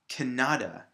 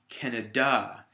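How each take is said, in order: First: The stress is on the middle syllable. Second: The stress is on the last syllable. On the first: "it would be right here in the middle" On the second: "if I put it at the end on the D A"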